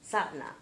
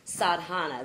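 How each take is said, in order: First: The word has two syllables, without the ha. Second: The word has three syllables, with the ha. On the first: The speaker calls it right. "it's pronounced satna. ... I guess the ha is not pronounced" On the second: The speaker calls it wrong. "That's the way I pronounce it"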